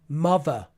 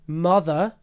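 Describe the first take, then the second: First: The middle consonant is a v sound. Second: The middle consonant is a th sound. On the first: "especially in London, will say mother" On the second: "instead of mother"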